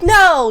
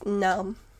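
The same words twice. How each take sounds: First: The word sounds happy and upbeat. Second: The word sounds sad and downbeat. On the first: The speaker calls it right. "I meant to be like" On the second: The speaker calls it wrong. "I didn't mean to sound sad"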